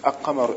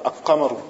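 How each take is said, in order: No difference in how they are said.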